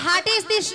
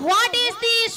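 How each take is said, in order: First: The first word starts with a plain h sound. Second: The first word starts with a w sound. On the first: The speaker calls it wrong. "মাসি ওটা হাট is this নয়" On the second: The speaker calls it right. "বলো হোয়াট is this"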